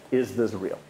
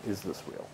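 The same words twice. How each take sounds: First: Said in the usual way. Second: "Is this real?" asked again much softer, almost to himself; hushed repeat. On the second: Shown as a demonstration. Lecturer echoing his own question to the class, much softer. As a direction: let the repeated question sink in quietly. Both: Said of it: "repeats question, second time hushed".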